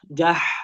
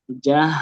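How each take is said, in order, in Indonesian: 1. Bunyi pertama tipis dan tinggi di tenggorokan. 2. Bunyi pertama berasal dari tenggorokan bawah. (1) "Jangan dia jadi tipis sampai naik ke tenggorokan tengah" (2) "di tenggorokan bawah"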